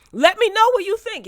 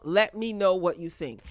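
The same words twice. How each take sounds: First: Much higher and louder, "me" pushed up; excited plea. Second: Said in the usual way. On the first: Real, not acted. Vlogger to viewers, urging comments excitedly. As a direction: sing out "let me know" to the viewers.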